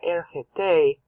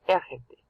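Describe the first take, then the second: First: The stress is on the last syllable. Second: The stress is on the first syllable. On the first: The speaker calls it wrong. "they got ergete" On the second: The speaker calls it right. "but no, ergete. ... So you stress the root verb"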